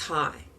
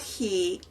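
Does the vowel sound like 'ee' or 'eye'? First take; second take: eye; ee. First: The vowel sounds like eye. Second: The vowel sounds like ee. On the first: The speaker calls it right. "it's hi" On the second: The speaker calls it wrong. "It's not he"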